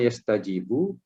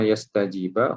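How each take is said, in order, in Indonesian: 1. Kata itu diakhiri dengan vokal u. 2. Kata itu diakhiri dengan vokal a. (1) "hukumnya adalah marfu'" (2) "hukumnya adalah mansub"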